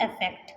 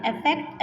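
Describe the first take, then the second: First: affect repeated much softer and lower. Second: Said in the usual way. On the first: Shown as a demonstration. Teacher echoing effect for students to show the same sound, softly. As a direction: drop to a quiet echo on affect. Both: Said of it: "same pronounce कर रहे हैं".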